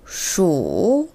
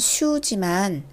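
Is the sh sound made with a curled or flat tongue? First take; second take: curled; flat. First: The sh sound is curled, with a deep u. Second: The sh sound is plain, with a flat tongue. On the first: The speaker calls it right. "입안에서 혀를 굴린 상태에서 우를 깊게 해주시는 겁니다" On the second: The speaker calls it wrong. "슈크림의 슈라고 하지 마시고요"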